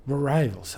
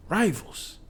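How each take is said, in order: First: Said in the usual way. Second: "Rivals!" jumps high with a hard push on the whole word; stress on rivals. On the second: Acted. Tantra warning Chalmu, "Rivals!" punched high. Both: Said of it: "her emphasis on the last word".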